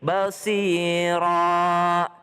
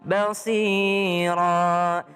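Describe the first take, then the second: First: The word ends with a long vowel. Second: The word ends with a long vowel.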